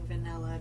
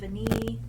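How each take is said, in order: First: The word ends with a final vowel sound. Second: The word ends without a final vowel sound. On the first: The speaker calls it wrong. "I've just been saying vanilla" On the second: The speaker calls it right. "I have been saying it wrong in all my past videos"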